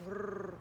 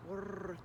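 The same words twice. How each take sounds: The two takes are said the same way.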